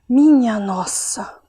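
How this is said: It is said with astonishment.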